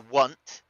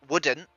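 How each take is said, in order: First: The word is squeezed into a single syllable. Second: The word is said in full with two syllables. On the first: This is how people from the speaker's region say it. "We say want" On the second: This is the standard form. "We don't we don't say uh wouldn't"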